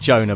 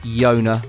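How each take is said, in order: First: The name begins with a J sound. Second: The name begins with a Y sound. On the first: This is how the person's name really goes. "His name's actually Jonah" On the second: This is the speaker's habitual way of saying it. "I always say it Yona"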